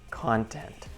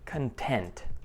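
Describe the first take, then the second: First: The stress is on the first syllable. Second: The stress is on the second syllable. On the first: It is a noun. "When we stress the first part" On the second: It is a verb or adjective. "when we stress the second part"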